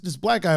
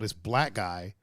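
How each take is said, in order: First: It is said in a plain, neutral tone. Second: It is said in a scornful, contemptuous tone. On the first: The word is used as a harmless description. "that's fine" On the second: The word is used as an insult. "that's a whole different thing"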